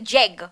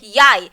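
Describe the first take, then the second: First: It begins with a J sound as spelled. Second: It begins with a Y sound, like 'yai'. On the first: The speaker calls it wrong. "if you pronounce it like Jeg" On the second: The speaker calls it right. "but you're gonna say it Yai"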